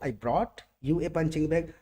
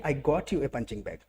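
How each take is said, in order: First: The stress falls on the word brought. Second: The stress falls on the word you. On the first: The effort of getting it matters most. "अगर मेहनत पे emphasise करना है" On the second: The person it was got for matters most. "अगर बंदे पे emphasise करना है"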